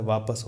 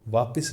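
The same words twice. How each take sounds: First: वापस as vaa-pas; correct pronunciation. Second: वापस said as vaapis, i for a; mispronunciation demo. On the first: Teacher corrects students, वापस pronounced vaa-pas. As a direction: keep short a in वापस. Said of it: "वापस होता है". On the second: Teacher shows the mistake, वापस mispronounced as vaapis. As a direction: put an i in वापस. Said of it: "वापस नहीं होता है". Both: Shown as a demonstration.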